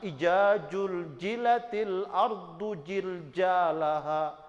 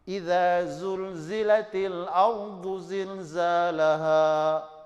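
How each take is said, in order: First: The key consonants are pronounced as j. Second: The key consonants are pronounced as z. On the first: The speaker calls it wrong. "Jangan ... itu kan salah" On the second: The speaker calls it right. "bacalah Al-Qur'an sesuai dengan yang diturunkan"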